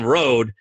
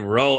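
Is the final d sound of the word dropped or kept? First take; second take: kept; dropped. First: The word ends with a clear d sound. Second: The word ends without a d sound. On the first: "instead of saying road" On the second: "they say row"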